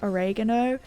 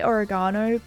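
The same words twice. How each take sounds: First: It is said with an American pronunciation. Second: It is said with an Australian pronunciation. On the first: "Americans say oregano" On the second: "I say oregano"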